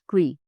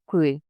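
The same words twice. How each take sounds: First: It begins with a K and V sound. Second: It begins with a K and W sound. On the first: The speaker calls it right. "say K and V fast together" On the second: The speaker calls it wrong. "Don't pronounce Q like English. It's never like Qui"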